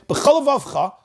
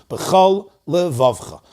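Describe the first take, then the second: First: The two words run together without a pause. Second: A short pause separates the two words. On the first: The speaker calls it wrong. "one word sounds like it's missing its opening letter" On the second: The speaker calls it right. "a pause"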